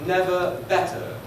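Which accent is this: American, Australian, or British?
British. It is said in a British accent. "In the United Kingdom"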